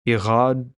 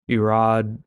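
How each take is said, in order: First: The R is a throaty French-style sound. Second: The R is a plain English-style sound. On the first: "make a French kind of R sound" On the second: "But just Irad would work"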